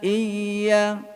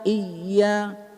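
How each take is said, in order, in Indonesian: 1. Bunyi y mengalir terus tanpa ditahan. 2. Bunyi y ditahan dengan kuat. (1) "huruf rakhawah, huruf yang berlalu"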